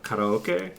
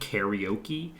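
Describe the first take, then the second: First: It is said with a Japanese pronunciation. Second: It is said with an American pronunciation. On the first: The speaker calls it right. "instead of" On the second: The speaker calls it wrong. "Americans pronounce things weird"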